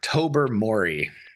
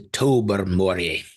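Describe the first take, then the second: First: The name is said in an American accent. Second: The name is said in a Scottish accent. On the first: "for the American pronunciators" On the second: "Nice pronunciation"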